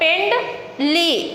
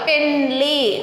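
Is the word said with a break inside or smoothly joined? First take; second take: break; smoothly joined. First: The syllables are split apart with a break. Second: The syllables are joined smoothly without a break. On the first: The speaker calls it wrong. "అటు చదవకూడదు" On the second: The speaker calls it right. "ఫుల్లుగా కలపాలి"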